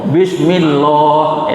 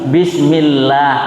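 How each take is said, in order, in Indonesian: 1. Huruf l pada Allah berat dan tebal. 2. Huruf l pada Allah ringan dan tipis. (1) "Tidak boleh membaca bismillah itu bismillah itu. Itu salah besar" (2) "maka dibaca tipis bismillah"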